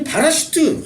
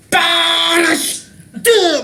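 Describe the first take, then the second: First: Said in the usual way. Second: 빠라시트 dragged out very slowly with a hard, punched 빠 and high pitch; show-off stress on 빠라시트, stretched and pompous; exaggerated heavy accent. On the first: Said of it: "이걸 꼭 강조하기 위해서 바라시트라고 하지". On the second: Shown as a demonstration. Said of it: "악센트를 엄청 넣어가지고". (빠라시트를 아주 느리고 과장되게 힘줘서)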